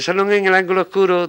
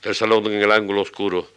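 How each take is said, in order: First: It is recited in a thin, squeaky, fluted voice. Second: It is recited with a heavy, thumping regular beat. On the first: "decíamos con aquella voz aflautada, voz entre voz de rata" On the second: "Pom, pom, pom, pom, pom, eso así"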